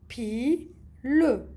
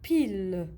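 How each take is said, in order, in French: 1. Les deux syllabes sont prononcées séparément, avec une pause. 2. Les deux syllabes sont liées en un seul mot. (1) "هذه la première syllabe وهذه la deuxième syllabe" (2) "كي نلصقوهم يولي عندنا un mot"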